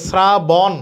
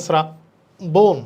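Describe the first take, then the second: First: "শ্রাবণ" as sra-bawn; wrong open vowel. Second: "শ্রাবণ" slowly as sra, bon; correct closed vowel. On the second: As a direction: split "শ্রাবণ" and round the final O. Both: Shown as a demonstration. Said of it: "না, এটা হবে".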